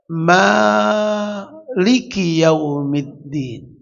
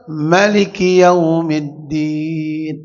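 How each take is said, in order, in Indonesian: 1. Vokal pertama Maliki dibaca panjang. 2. Vokal pertama Maliki dibaca pendek. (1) "seratus lima puluh enam kalau Bapak membaca" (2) "pendek seratus lima puluh lima"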